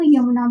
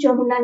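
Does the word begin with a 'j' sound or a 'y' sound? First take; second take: y; j. First: The word begins with a 'y' sound. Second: The word begins with a 'j' sound. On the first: The speaker calls it right. "उसको यमुना बोला जाता है" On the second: The speaker calls it wrong. "उसको बोलते हैं जमुना नदी, तो वो गलत है"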